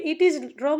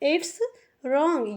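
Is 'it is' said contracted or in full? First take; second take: full; contracted. First: It is said with both words in full. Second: It is said with the words contracted together. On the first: "इट इज wrong लिखा है" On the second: "लेकिन हम पढ़ते हैं इट्स wrong"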